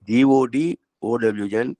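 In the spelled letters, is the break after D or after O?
after D. The letters are spelled with a break after D. The goods belong to God. "இரண்டாக பிரிக்கின்ற போது"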